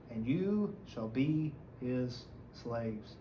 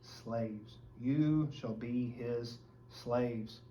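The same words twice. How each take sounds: First: Very slow, heavy, word by word; grave reading of the verdict; solemn warning. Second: Slow, quieter, weighty; slow solemn repeat; grave echo. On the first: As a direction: let the doom land slowly. Climax of read prophecy. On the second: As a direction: echo it back heavily. Repeating the answer. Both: Acted.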